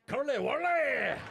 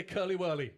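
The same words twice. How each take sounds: First: Loud, high, drawn-out mock Glaswegian; Glaswegian accent. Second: Said in the usual way. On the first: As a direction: belt out "Curly whirly" in an exaggerated Glasgow accent. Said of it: "I fucking love the Glaswegian accent".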